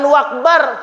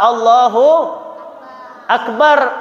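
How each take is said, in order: First: Akbar starts with a w sound. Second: Akbar starts with a clear glottal stop. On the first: The speaker calls it wrong. "jangan wakbar" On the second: The speaker calls it right. "Bacanya apa? Allahu Akbar"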